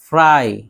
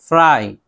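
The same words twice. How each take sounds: The two takes are said the same way.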